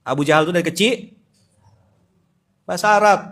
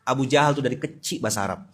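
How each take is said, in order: First: Louder restatement, bahasa Arab punched high; emphatic. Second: Said in the usual way. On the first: Real, not acted. Preacher repeating his point to the live audience, emphatic. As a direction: hammer the point home. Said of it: "ngegas lupa saya".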